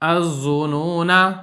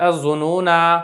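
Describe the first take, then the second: First: The final vowel is kept short. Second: The final vowel is drawn out long. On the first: The reader joins it to the next word. "अगर आप इसको वक़्फ़ नहीं करते हैं तो आप इसको पढ़ेंगे" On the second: The reader stops on this word. "वक़्फ़ की सूरत में तो आखिर वाला अलिफ़ पढ़ा जाएगा"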